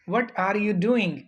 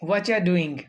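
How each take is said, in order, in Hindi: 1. शब्द 'are you' पूरे बोले जाते हैं। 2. शब्द 'are you' जुड़कर और छोटे होकर बोले जाते हैं।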